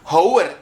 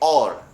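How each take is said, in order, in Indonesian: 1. Kata ini diawali dengan bunyi H. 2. Kata ini diawali dengan bunyi vokal. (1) "bukan bacanya hour" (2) "tapi or"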